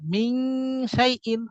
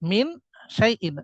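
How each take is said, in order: First: The n is hidden in a nasal hum. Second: The n is a clear dental n. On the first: The speaker calls it right. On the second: The speaker calls it wrong.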